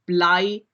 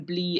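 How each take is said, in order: First: The vowel glides as a diphthong. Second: The vowel is one long, unchanging vowel. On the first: This is the modern form. "diphthongization into modern German becoming I" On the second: This is the older medieval form. "rhyme words with long E"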